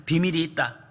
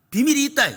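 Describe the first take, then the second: First: Said in the usual way. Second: 비밀이 있다 said much higher and louder; raised, emphatic repeat. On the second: Shown as a demonstration. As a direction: lift the repeat up high to drive it home. (높고 힘있게 반복)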